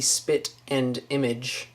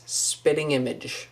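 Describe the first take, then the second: First: Slow "spit and image" with a separate "and"; wrong version. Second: "spitting image" as two words, "spitting" run together; correct version. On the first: Correcting a common mistake for viewers, slow wrong version. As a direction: spell out "spit and image" as three distinct words. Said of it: "It is not the spit and image". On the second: Correcting a common mistake for viewers, run-together version. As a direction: say "spitting image" with an -ing ending, no "and". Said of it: "It is spitting image". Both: Shown as a demonstration.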